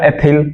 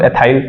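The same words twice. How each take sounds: First: एथिल said with a short 'thil' ending; short-i pronunciation. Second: एथाइल said as 'eh-THAIL'; alternative pronunciation. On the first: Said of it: "एथिल भी कुछ लोग बोलते हैं". (एथिल, छोटी इ के साथ 'थिल' उच्चारण) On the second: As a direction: say एथाइल with a long-eye second syllable. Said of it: "अपना प्रोनाउंसिएशन अपने आप से कर सकते हैं". (एथाइल, 'आइ' स्वर के साथ उच्चारण) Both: Shown as a demonstration.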